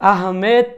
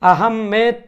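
First: The name ends with a 'med' sound. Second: The name ends with a 'med' sound.

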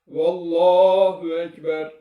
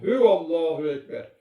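First: The phrase starts directly with 'vallahu'. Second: An extra 'hu' sound comes before 'vallahu'. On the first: The speaker calls it right. "söylenmesi gereken doğru şekil" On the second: The speaker calls it wrong. "hü mükerrer söyleniyor"

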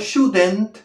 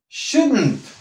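First: An extra vowel is heard before the final nt. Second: No extra vowel is heard before the final nt. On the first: The speaker calls it wrong. "no shouldn't. Aquí no hay una E" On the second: The speaker calls it right. "Aquí no hay una E"

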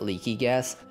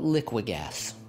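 First: The first part sounds like the word leaky. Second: The first part sounds like the word liquid. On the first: "as one of my friends calls it" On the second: "I call it Liquigas, because gas is liquid"

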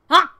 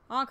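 First: The honk is loud and fully committed. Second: The honk is flat and half-hearted.

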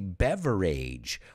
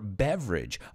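First: The ending sounds like the word age. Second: The ending sounds like idge, rhyming with bridge. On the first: The speaker calls it wrong. "we don't say beverage" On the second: The speaker calls it right. "it's always idge"

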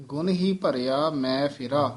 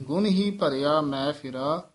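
No difference in how they are said.

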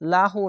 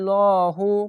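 First: The syllable is pronounced light and thin. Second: The syllable is pronounced heavy and thick. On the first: The speaker calls it wrong. "লাহু না বলে" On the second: The speaker calls it right. "লহু পড়বেন"

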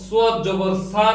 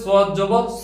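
First: The final vowel is a long open 'aa'. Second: The final vowel is a short 'o'-like sound. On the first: The speaker calls it wrong. "সদ জবর সা না বলে" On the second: The speaker calls it right. "অকার যোগে উচ্চারিত হবে"

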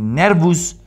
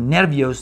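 First: The final vowel is a full 'u'. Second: The final vowel is 'io', like Spanish. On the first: "ni nervus" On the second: "ni nervios"

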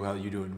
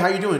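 First: It sounds bored and uninterested. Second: It sounds eager and enthusiastic.

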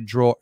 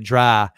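First: It is said in a standard accent. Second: It is said in a Boston accent.

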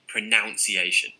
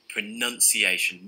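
First: The second syllable sounds like 'noun'. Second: The second syllable sounds like 'nun'. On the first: The speaker calls it wrong. "Not pronunciation" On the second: The speaker calls it right. "None. Pronunciation"

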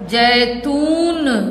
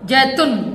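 First: The last syllable has a long, stressed u vowel. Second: The last syllable has a short u vowel. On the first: The speaker calls it right. "बड़ा ऊ है तो कहेंगे कैसे" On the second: The speaker calls it wrong. "छोटा ओ होता तो कहते हम जैतून"

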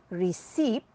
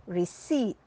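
No difference in how they are said.

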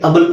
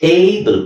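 First: The word begins with a short 'uh' sound. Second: The word begins with an 'ay' sound. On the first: The speaker calls it wrong. "ಇಲ್ಲಿ ಅಬಲ್ ಅಂತ ಹೇಳಕ್ಕಾಗಲ್ಲ" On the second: The speaker calls it right. "ಇಲ್ಲಿ ಎ ಇದೆ ಏಬಲ್ ಅಂತ ಹೇಳಬೇಕು"

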